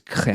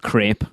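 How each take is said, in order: First: The vowel is short, rhyming with 'step'. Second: The vowel is long, rhyming with 'rate'. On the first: The speaker calls it right. "It's crep" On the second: The speaker calls it wrong. "The word's not crepe"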